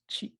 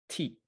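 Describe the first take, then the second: First: The syllable begins with a ch sound. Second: The syllable begins with a plain t sound. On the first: This is the modern form of the sound. "that T became chi" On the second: This is the older form of the sound. "in old Japanese, there used to be the sound T"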